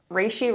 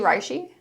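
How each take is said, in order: First: "reishi" with a first syllable like "ray"; pronounced RAY-shee. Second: "reishi" with a first syllable like "rye"; pronounced RYE-shee. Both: Shown as a demonstration. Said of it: "I've been saying ri-, reishi".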